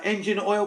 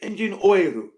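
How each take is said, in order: First: It is said with a plain English pronunciation. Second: It is said with a Japanese-style pronunciation. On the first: The shop staff did not understand it. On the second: The shop staff understood it.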